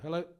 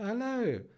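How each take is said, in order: First: It is said in her ordinary, plain accent. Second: It is said in a put-on posh accent.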